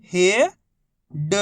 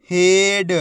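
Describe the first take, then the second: First: Each syllable held, long pause between; first syllable rising, then a separate second. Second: Whole word in one joined, drawn-out piece; teacher's blended model reading; syllables blended. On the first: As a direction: sound it out for beginning readers. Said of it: "एक ही अक्षर का उच्चारण करके". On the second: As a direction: join the sounds into one loud, clear word. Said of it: "आपस में मिला के पढ़ना है". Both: Shown as a demonstration.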